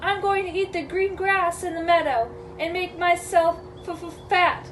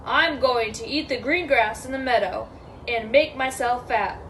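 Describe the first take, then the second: First: Higher, timid goat voice with a stammer; scared little reply, pitched up; nervous middle goat. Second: Steady big-goat voice, no stammer; lightly voiced bold goat; unafraid big goat. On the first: Acted. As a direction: stutter on the last word in fright. Frightened middle goat answers troll. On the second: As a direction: state it evenly and confidently.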